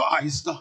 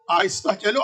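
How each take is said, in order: First: آہستہ hushed and lower, barely voiced; hushed caution. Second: Said in the usual way. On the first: [name] hushing her sister near the sleeping children, softly. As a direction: repeat it softer and lower, as if not to wake sleepers. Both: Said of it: "ان کی آنکھ نہ کھل جائے".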